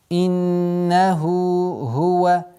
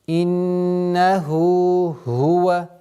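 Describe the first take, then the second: Both takes have the same delivery.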